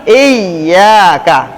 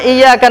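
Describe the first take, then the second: First: The y sound is held long and doubled. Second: The y sound is short and single. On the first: It means to you alone we worship. The speaker calls it right. "pakai tasydid" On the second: It means to the sun we worship. The speaker calls it wrong. "rusak salatnya"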